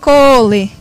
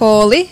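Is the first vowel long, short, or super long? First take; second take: super long; long. First: The first vowel is extra long. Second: The first vowel is long. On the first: It means to school. "super long" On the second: It means of school.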